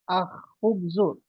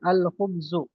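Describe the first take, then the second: First: The L is dropped and the kh is doubled. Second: The L is clearly pronounced before the kh. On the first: The speaker calls it wrong. "tidak boleh akhubzu. Kho-nya dikasih tasydid tidak boleh" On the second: The speaker calls it right. "Dia jelas lamnya dibaca al"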